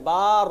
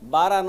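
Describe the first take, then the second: First: The syllable's vowel is drawn out long. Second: The syllable is short with an extra vowel after. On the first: The speaker calls it right. "বারা নয় বার" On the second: The speaker calls it wrong. "নয়"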